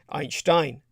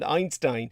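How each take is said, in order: First: The name is said the original German way. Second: The name is said the everyday English way.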